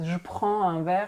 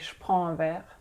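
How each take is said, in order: First: The vowel of je is fully pronounced. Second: The vowel of je is dropped, sounding like sh. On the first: "it's physically very hard" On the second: "it's easier to say"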